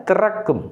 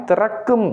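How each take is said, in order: The two takes are said the same way.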